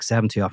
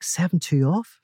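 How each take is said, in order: First: Said in the usual way. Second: "Seven two off?" jumps high in disbelief, rising at the end; incredulous. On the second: Acted. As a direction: ask "Seven two off?" as if it can't be serious. Seamus doubts God's order.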